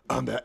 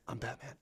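First: The words are said in a gruff growl. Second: The words are said in a soft whisper. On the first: The speaker calls it wrong. "It wasn't like" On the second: The speaker calls it right. "it was just his voice, but it was just a nice little whisper"

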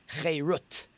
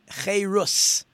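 First: The word ends with a T sound. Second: The word ends with an S sound. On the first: "depending if there's an S or a T sound at the end" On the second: "depending if there's an S or a T sound at the end"

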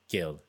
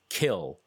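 First: It starts with a softer g sound. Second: It starts with a hard k sound. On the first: "so I'm pronouncing it more the gil" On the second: "Which I always thought was kill, K-I-L"

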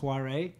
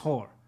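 First: The name is said in a non-obvious alternative way. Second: The name sounds exactly like the word 'whore'. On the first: The name would avoid sounding rude. "he had every opportunity to tell people that it was pronounced Huare" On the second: The name keeps sounding like a rude word.

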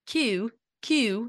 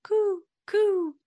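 First: It is said in a British, London accent. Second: It is said in an American accent.

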